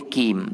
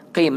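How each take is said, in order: First: "kim" with a thin front k; light k in "kim"; wrong kim. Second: Full qaf in "qim"; correct qim. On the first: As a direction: say "kim" with an ordinary k, not a deep qaf. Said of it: "Tak boleh kim". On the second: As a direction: say "qim" from the base of the throat. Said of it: "Kena sebut qim lah". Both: Shown as a demonstration.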